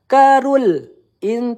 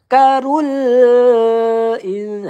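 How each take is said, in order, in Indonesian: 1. Bunyi L ditahan lalu dihentikan. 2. Bunyi L sedang, tidak ditahan dan tidak mengalir. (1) "Jangan karul in tertahan, tidak boleh" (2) "Dia di tengah-tengah"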